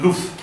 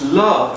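First: The vowel is the northern rounded 'oo'-like sound. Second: The vowel is the southern English open 'uh' sound. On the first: "northern loof" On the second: "Southern English love"

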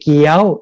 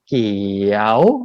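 First: The pitch is higher still. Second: The pitch dips and curves upward. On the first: "ไม่ตรีเกี้ยวสูงอีก" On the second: "ครูนิวทำลูกศรโค้งเนี่ยเพราะว่าเสียงมันเป็นเกี่ยวแบบนี้"

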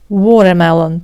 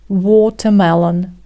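First: The t is softened and not crisp. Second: The t is pronounced crisply and clearly. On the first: "вони не вимовляють звук Т так чітко" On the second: "Це, до речі, британський варіант"

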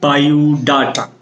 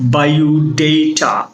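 First: The third syllable has an 'ah' vowel. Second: The third syllable has an 'ay' vowel. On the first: The speaker calls it wrong. "আমরা বলি বায়োডাটা" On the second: The speaker calls it right. "Sound হবে বায়োডেটা"

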